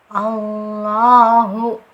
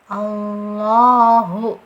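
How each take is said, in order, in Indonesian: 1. Huruf L-nya tebal, bunyinya dalam dan penuh. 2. Huruf L-nya tebal, bunyinya dalam dan penuh.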